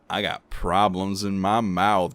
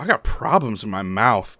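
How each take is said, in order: First: It is said in a flirty, seductive tone. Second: It is said in a plain, matter-of-fact tone. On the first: It suggests a sexually transmitted disease. "the like sexy way is not at all sexy" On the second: It makes listeners uncomfortable. "people are like, ooh"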